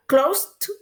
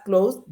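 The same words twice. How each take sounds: First: "closed" slowly as "clos-t", rising; candidate T ending. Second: "closed" rising, with a separated voiced "d"; candidate D ending. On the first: Teacher quizzes students on the past, slow "closed" ending in T. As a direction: release a sharp T after "closed", as a question. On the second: Teacher offers students another option, "closed" ending in separated D. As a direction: detach the D of "closed", as a question. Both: Shown as a demonstration. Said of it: "cómo se pronuncia el pasado".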